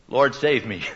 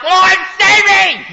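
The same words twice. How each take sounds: First: It is said calmly, like a plain reading. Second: It is cried out desperately, like someone sinking.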